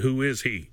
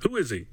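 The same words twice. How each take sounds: First: It is said in a neutral reading tone. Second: It is said with malice in the voice.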